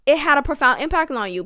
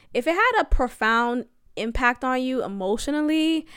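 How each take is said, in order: First: "had" leaned on, faster and a bit louder; emphatic repeat. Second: Said in the usual way. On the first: Shown as a demonstration. Insisting to listeners it still had an impact, stressed "had". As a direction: press the point home on "had". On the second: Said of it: "it had a profound impact on you, period".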